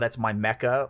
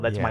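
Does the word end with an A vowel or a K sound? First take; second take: A vowel; K sound. First: The word ends with an added A vowel. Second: The word ends with a hard K sound. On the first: The speaker calls it wrong. "like that that doesn't sound right" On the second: The speaker calls it right. "it ends with that hard K, so it sounds better"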